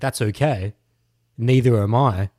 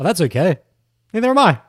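First: It sounds suggestive and seductive, more sexual. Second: It sounds friendly and innocent, like a nice guy.

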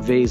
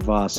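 First: The vowel sounds like 'ay', rhyming with place. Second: The vowel sounds like 'ah', not rhyming with place.

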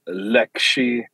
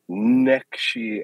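First: The word begins with an L sound. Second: The word begins with an N sound. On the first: "whether you pronounce an L" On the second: "an N"

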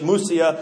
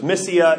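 First: The first vowel is a U sound. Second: The first vowel is an E sound. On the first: This is the Greek reading of the name. "in Greek, the Y was an U sound. ... Mysia if we're reading it in Greek" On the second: This is the English reading of the name. "we pronounce it as an E sound. So it's Mysia if we're reading it in English"

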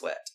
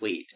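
First: The vowel is a short e sound. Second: The vowel is a long ee sound. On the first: The speaker calls it right. "but it's Swett" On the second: The speaker calls it wrong. "what if it's Sweet? And I've been saying it wrong"

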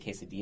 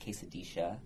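First: The double L is sounded like y. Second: The double L is sounded like sh. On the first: "the Y sound" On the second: "It's like shh instead of, like, the Y sound"

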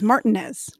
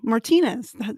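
First: The name is said with English sounds. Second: The name is said with Spanish sounds. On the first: This is how the locals said the name. "it was" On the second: This is how the name is said back home. "they didn't pronounce them like, you know"

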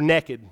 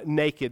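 First: The word is said in a rural Southern dialect. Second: The word is said in standard pronunciation. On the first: The speaker calls it wrong. "I'm a Hot Spring County boy" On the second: The speaker calls it right. "maybe, is a proper way to pronounce that"

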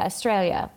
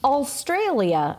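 First: It is pronounced the way Australians say it. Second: It is pronounced the way outsiders say it. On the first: The speaker calls it right. "they say Australia" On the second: The speaker calls it wrong. "no one says it like that"

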